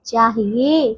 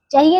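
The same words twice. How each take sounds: First: चाहिए drawn out as chaa-hiye; long first vowel. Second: चाहिए clipped to cha-hiye; short first vowel. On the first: Teacher correcting pupils, चाहिए with long chaa. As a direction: stretch चाहिए, falling low. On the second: Teacher showing wrong चाहिए, short first vowel. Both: Shown as a demonstration. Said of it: "चाहिए नहीं".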